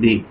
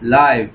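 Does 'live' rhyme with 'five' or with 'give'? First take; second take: give; five. First: The vowel is short, as in 'give'. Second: The vowel is long, as in 'five'. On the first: The word is used as a verb. "যখন verb হিসেবে কাজ করে তখন হচ্ছে যে লিভ" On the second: The word is used as an adjective. "এটার উচ্চারণটা ... লাইভ"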